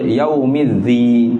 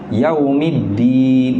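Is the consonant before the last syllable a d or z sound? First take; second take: z; d. First: The final syllable begins with a z sound. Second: The final syllable begins with a d sound. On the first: The speaker calls it wrong. "Dia baca dal dengan za" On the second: The speaker calls it right. "Atau dal pada din"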